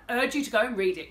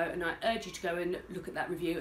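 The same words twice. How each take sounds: First: Louder, pressing the point on URGE; emphatic urging. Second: Said in the usual way. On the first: Real, not acted. Vlogger urging viewers to read her review, emphatic. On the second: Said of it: "and I urge you to go and read it".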